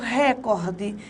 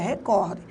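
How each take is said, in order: First: The stress is on the first syllable. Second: The stress is on the second syllable. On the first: The speaker calls it wrong. "Quando eu falo recorde" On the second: The speaker calls it right. "na verdade a palavra é recorde"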